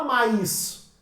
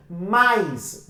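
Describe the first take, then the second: First: "mais" broken in two as "ma-is"; split into two syllables. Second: "mais" said as one single syllable. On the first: Teacher showing how mais is not said, "ma-is" in two syllables. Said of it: "você não fala mais". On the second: Teacher showing mais has one syllable, "mais" unsplit. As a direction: open the mouth once for "mais". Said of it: "Você abre a boca uma vez só". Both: Shown as a demonstration.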